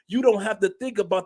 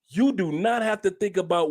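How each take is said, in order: First: It is spoken at a quicker, normal pace. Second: It is spoken slowly and deliberately.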